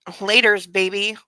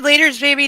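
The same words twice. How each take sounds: First: Said in the usual way. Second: Scornful mock of Laters, baby, higher; cringing quote of Laters, baby. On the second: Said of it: "did we add".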